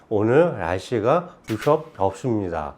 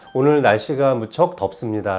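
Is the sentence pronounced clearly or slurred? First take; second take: slurred; clear. First: The words are slurred, like a drunk person. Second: The words are articulated clearly and precisely. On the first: The speaker calls it wrong. "라는 식으로 혀가 제대로 돌아가지 않고" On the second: The speaker calls it right. "라고 말해야 되는데"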